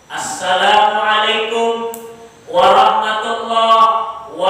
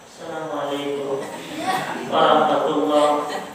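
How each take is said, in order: First: It is said loudly, with energy. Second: It is said weakly, without energy.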